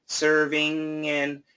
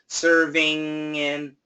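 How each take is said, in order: No difference in how they are said.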